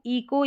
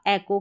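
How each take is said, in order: First: ईको with a long "ee" at the start; alternative pronunciation. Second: एको opening on "e", not "ee"; common pronunciation. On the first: (ईको, शुरुआत में लंबी "ई" की आवाज़) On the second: (एको, शुरुआत में "ए" की आवाज़) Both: Shown as a demonstration. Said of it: "ईको या एको करके प्रोनाउंस किया जाता है".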